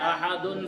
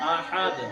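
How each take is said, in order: First: The word ends with a full -un ending. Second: The word ends abruptly on a bouncing d sound. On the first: The reciter continues without stopping. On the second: The reciter stops on this word.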